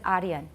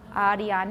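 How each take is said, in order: First: The unstressed vowel is reduced to a schwa. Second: The unstressed vowel is a full, unreduced vowel. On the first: The speaker calls it wrong. "很自然就念出一个 schwa" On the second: The speaker calls it right. "No schwa"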